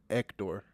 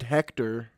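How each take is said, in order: First: The word starts without an H sound. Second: The word starts with an H sound. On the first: "because you don't say the H" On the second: "someone named Hector in America"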